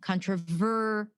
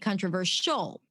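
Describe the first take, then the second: First: The stress is on the ver syllable. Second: The stress is on the final syllable. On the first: The speaker calls it right. "the stress on controversial, the ver sound, the ver syllable" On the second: The speaker calls it wrong. "you put the stress at the end"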